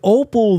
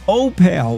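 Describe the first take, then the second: First: The second syllable has a reduced vowel. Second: The second syllable has a full 'pal' vowel. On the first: This is the usual name of the stone. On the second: This is how the townspeople say their town's name.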